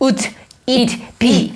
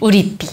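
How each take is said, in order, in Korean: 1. 각 단어를 끊어서 따로따로 말합니다. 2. 단어들이 자연스럽게 이어져서 하나로 발음됩니다. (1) "다 뚝뚝 끊겨서" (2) "연음하면"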